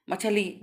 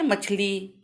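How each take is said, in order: First: मछली with an extra vowel, म-छ-ली; wrong spelling read out. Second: मछली with छ running straight into ली; usual pronunciation demo. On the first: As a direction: sound out मछली in three full syllables. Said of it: "लिख दें गलत है". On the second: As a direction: say मछली in two beats, मछ-ली. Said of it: "यही हम लोग बोलते हैं". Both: Shown as a demonstration.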